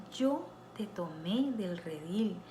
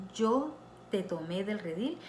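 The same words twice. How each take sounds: No difference in how they are said.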